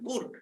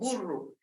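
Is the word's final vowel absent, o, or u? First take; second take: absent; u. First: The word ends with no final vowel. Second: The word ends with a u vowel. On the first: This is the assimilated form used in valley Zapotec. "le quitan la vocal al final" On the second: This is the assimilated form used in the speaker's Zapotec. "sino con U"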